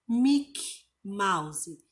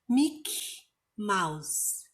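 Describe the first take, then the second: The two takes are said the same way.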